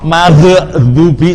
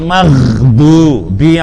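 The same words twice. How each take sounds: First: The gh sound ends with a bouncing echo. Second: The gh sound flows smoothly without echo. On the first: The speaker calls it wrong. "Maghdubi salah" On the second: The speaker calls it right. "yang betul ghairil maghdubi alaihim"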